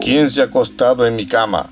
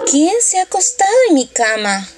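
First: A big, deep, booming voice for Papa Bear. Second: A small, sweet voice for the little bear.

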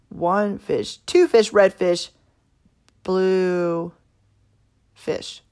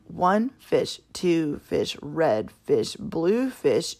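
First: It is read with an uneven, shifting beat. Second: It is read with an even, steady beat. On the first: The speaker calls it wrong. "one was kind of a hot mess" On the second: The speaker calls it right. "one was steady"

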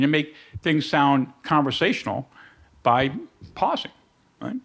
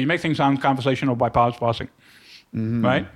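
First: The sentence is spoken slowly with pauses between phrases. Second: The sentence is spoken quickly with no pauses. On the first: It sounds natural and conversational. The speaker calls it right. "you make things sound conversational by pausing" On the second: It sounds hurried and unnatural. The speaker calls it wrong. "As opposed to"

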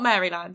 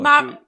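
First: Every syllable of the word is said carefully. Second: The word is said quickly with reduced syllables. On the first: The speaker calls it wrong. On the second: The speaker calls it right.

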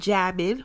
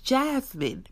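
First: The name is said without an s sound. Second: The name is said with an s sound. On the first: The speaker calls it wrong. "It's not Jasmine without an S" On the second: The speaker calls it right. "It's Jasmine"

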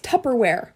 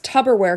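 First: The middle consonant sounds like a P. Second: The middle consonant sounds like a B. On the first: The speaker calls it right. "but it's pronounced Tupperware" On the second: The speaker calls it wrong. "people say it's Tupperware because it's like a tub"

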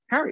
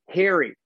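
First: The name is said with the usual short vowel. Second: The name sounds like the word hairy. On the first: "Just say Harry" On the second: "She would say Harry, like H-A-I-R-Y"

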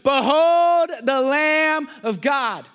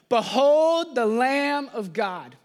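First: It is said louder, with more force. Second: It is said at a normal, softer volume.

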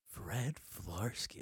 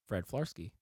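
First: It is said in a dirty, sexy way. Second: It is said in a clean, plain way.

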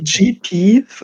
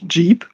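First: The name is said as two letters, 'G-P'. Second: The name is said as one word, 'jeep'. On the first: "like the two letters" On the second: "it's literally written like the Jeep, the car"

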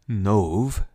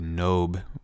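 First: The name ends with a v sound. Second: The name ends with a b sound. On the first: This follows the Hebrew pronunciation. "is how you'd pronounce it in Hebrew" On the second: This follows the English pronunciation. "maybe Nob might be the better English pronunciation for it"

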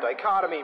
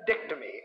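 First: The word is said in its full standard form. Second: The word is said in a shortened form. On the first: The speaker calls it right. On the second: The speaker calls it wrong.

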